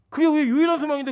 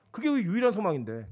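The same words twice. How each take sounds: First: 그게 우리 유일한 소망인데 said higher, louder and faster; emphatic repeat. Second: Said in the usual way. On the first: Shown as a demonstration. Preacher driving home the only hope, urgently.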